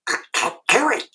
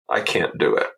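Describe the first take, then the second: First: It is said in a Donald Duck voice. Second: It is said in his normal voice.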